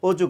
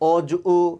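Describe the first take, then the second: First: The final vowel is half-said and blended in. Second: The final vowel is said fully and separately. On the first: The speaker calls it right. "অর্ধেক অর্ধেক উচ্চারণ করছি" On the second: The speaker calls it wrong. "যদি ও এর উচ্চারণ পুরোটাও হতো তাহলে উচ্চারণ হতো"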